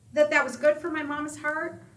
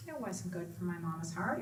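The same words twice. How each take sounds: First: Rising, louder question on "good"; teasing question. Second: Quiet answer. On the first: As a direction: ask it leading, pushing up on "good". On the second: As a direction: drop it quietly, matter-of-fact. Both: Shown as a demonstration.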